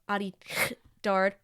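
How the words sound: The name is said with a French accent. The speaker calls it right. "French people, you gotta put the spit into it"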